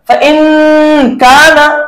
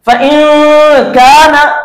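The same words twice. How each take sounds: First: The n sound is pronounced fully. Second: The n sound is hidden in the nose. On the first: The speaker calls it wrong. "हम इसको इस तरह से नहीं पढ़ेंगे" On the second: The speaker calls it right. "लिहाजा हम इसको कैसा पढ़ेंगे"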